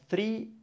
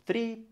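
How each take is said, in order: Both takes have the same delivery.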